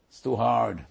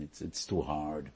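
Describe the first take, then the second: First: "too hard" thrown out louder, a whiny groan of giving up; complaining it's too hard, voiced louder; exasperated complaint. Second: Said in the usual way. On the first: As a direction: complain like the burden is too heavy. People balking at Torah.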